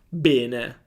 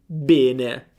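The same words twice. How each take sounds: Both takes have the same delivery.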